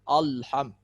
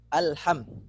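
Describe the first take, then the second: First: The opening sound is made thick and heavy. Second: The opening sound is made thin and light. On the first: The speaker calls it wrong. "menebalkan huruf-huruf yang harusnya tipis" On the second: The speaker calls it right. "harusnya dibaca seperti itu"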